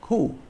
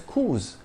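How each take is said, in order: First: The word ends without an S sound. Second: The word ends with an audible S sound. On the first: "it's still pronounced coup. The S is silent" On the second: "we enunciate the S in the plural"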